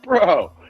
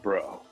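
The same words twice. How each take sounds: First: Said in a pleased, approving tone. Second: Said in a scolding, disapproving tone. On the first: Something turned out well. "that means it's good" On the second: The listener made a mistake. "that means like you fucked up"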